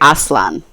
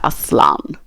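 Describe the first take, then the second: First: It is pronounced the English way. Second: It is pronounced the Turkish way. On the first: The speaker calls it wrong. "number one Aslan" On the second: The speaker calls it right. "number two Aslan with like the Aslan"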